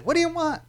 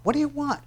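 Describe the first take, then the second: First: Very high, snotty sneer; mock a defiant kid talking back; rebellious kid. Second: Much higher, snotty sneer; rebellious kid. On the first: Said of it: "here's a rebellious kid". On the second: Retold or imitated. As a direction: throw it back like a defiant teenager.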